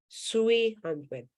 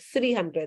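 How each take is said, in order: First: The first word starts with an s sound. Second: The first word starts with a soft th sound. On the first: "They couldn't say three. They would say sui" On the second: "where three is soft th"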